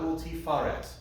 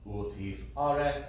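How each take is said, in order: First: The word flows smoothly with no break. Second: A glottal stop breaks the word before the vowel. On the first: The speaker calls it wrong. "Not ultifaret. It's not fa" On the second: The speaker calls it right. "a break in the word, and then you retake the vowel"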